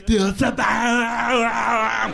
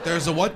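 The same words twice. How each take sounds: First: Put-on slow, high Austrian-accent yell, stretching bomb; Schwarzenegger yell. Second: Said in the usual way. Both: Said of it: "You ever hear Schwarzenegger yell".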